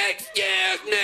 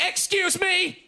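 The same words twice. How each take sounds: First: Grotesque high-pitched mimicry; mocking the lady. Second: High, drawn-out mock indignation; indignant lady. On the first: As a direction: jeer her words back in a squeal. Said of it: "mock her and be like". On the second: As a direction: imitate an affronted woman, pitched up. Indignant lady bumped on platform.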